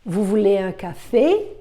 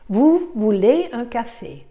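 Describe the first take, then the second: First: The voice rises on the last word. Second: The voice does not rise at the end. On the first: It asks whether the listener wants a coffee. "I raise the voice, the last um, word" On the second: It states that the listener wants a coffee. "That's a statement as I said it"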